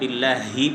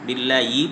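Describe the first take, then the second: First: The h sound is clear and fully pronounced. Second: The h sound is weak and barely heard. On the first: The speaker calls it right. "বিল্লাহি পড়তে হবে" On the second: The speaker calls it wrong. "বিল্লাহি পড়া যাবে না"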